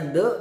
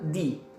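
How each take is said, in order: First: The vowel is a short, weak 'uh' sound. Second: The vowel is a long 'ee' sound. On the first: The next word starts with a consonant. "kalau ada kata benda setelah the itu huruf depannya konsonan, kita bacanya the" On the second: The next word starts with a vowel. "kalau the dibacanya di"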